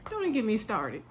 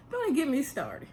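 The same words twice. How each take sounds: First: Weary repeat, weight on "even"; stress on even. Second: "Don't" hit high and hard, rest falling; exasperated, punch the first word; stress on don't. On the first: To viewers, weary repeat: "even" stressed. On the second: To viewers, exasperated: "Don't" stressed. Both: Shown as a demonstration.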